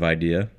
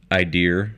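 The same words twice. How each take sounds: First: The word has a standard pronunciation. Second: The word has an East Coast pronunciation. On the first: "instead of idea" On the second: "I typically say idea"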